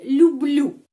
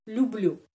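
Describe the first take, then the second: First: Люблю said louder with a falling tune; emphatic model word. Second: Said in the usual way. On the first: Shown as a demonstration. Teacher announcing Люблю firmly to students. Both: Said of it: "cinta sama bahasa Rusia".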